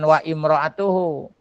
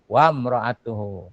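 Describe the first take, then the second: First: The i sound after wa is kept. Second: The i sound after wa is dropped. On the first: The speaker calls it wrong. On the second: The speaker calls it right. "Kalau dia di tengah-tengah hilang barisnya"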